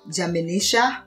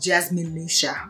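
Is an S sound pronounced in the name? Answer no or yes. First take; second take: no; yes. First: The name is said without the S sound. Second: The name is said with the S sound. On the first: "I leave the S out" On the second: "The right way to say it is Jasminisha"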